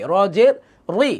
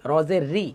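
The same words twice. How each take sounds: First: "র জের রি" with a heavy, full "রি". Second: "র জের রি" with a light, thin "রি"; common misreading. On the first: Teacher models "র জের রি" for learners, heavy R. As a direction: say "রি" with a thickened R. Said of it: "একটু মোটা হবে র এর নিচে জের হলে". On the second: Teacher shows how many misread "র জের রি", thin R. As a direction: say "রি" without thickening the R, softly. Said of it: "অনেকে আমরা এভাবে পড়ি". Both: Shown as a demonstration.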